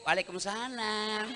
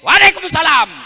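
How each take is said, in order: First: It is said in a soft, alluring voice. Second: It is said in a firm, curt voice.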